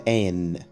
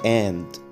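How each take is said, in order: First: The final d sound is dropped entirely. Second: The final d sound is clearly pronounced. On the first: The speaker calls it right. "قول على an" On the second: The speaker calls it wrong. "ما تقولش and"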